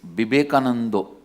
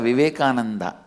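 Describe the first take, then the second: First: It begins with B and ends in an O sound. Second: It begins with V and ends in an A sound. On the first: "In Bengali, it is Bibekanando" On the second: "it is never Vivekananda"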